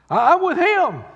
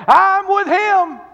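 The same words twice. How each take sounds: First: High, loud boast; proud high shout of loyalty. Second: Very high, loud, slow cry; high slow preaching shout; peak shout. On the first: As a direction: belt out Peter's boast. Peter's boast retold louder. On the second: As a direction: cry it out at full force. Peter's boast at its peak. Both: Retold or imitated.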